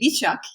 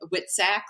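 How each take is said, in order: First: The name is pronounced the Polish way. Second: The name is pronounced the American way. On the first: This is how people in Poland say it. "When I was in Poland, I remember they would say Wiczak" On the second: This is how it is said in the States. "in the States, um, like Witsack, like sack of wits"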